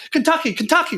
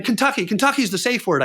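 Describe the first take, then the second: First: Kentucky squeaked very high, desperate; terrified victim crying the safe word Kentucky; frantic pleading. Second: Kentucky said high but steady, proposing it; scared man naming the safe word Kentucky; urgent suggestion. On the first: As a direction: shriek the safe word to make him stop. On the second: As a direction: offer the safe word, worried. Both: Retold or imitated. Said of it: "like this".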